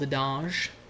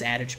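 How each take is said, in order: First: It is said with a French-style pronunciation. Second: It is said with a plain English pronunciation. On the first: The speaker calls it wrong. "I felt like saying it wrong. It's just like garbage. Saying things with like a French accent" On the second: The speaker calls it right. "I know it's adage"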